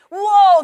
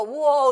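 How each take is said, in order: First: A big, high, loud whoa, much louder; loud alarmed whoa. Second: A mild, half-voiced whoa of alarm; understated whoa, inner voice noticing something off; startled whoa. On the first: Retold or imitated. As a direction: blare it like an alarm going off. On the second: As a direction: catch yourself gently at a false idea. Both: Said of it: "that meter goes off when we go".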